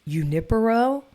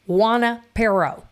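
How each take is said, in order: First: The name begins with a non-W sound. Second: The name begins with a W sound. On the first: This is the name as it is normally pronounced. "also known as Junipero" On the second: This is how people who live there say it. "The locals, the people, the native people here... we like to mispronounce it"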